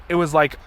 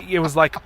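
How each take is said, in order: Both takes have the same delivery.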